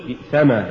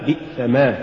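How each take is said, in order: First: بئسما as one word, ما unstressed; joined form. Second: بئسما as بئس + ما, two words; separated form. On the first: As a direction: bind ما onto بئس in بئسما. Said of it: "الموصولة". («بئسما» موصولة) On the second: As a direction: give ما its own weight in بئسما. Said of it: "والمفصولة". («بئسما» مفصولة) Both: Shown as a demonstration.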